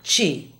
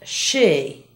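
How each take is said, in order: First: The word begins with a hard ch sound. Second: The word begins with a soft sh sound. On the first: The speaker calls it wrong. "not chi" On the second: The speaker calls it right. "And she"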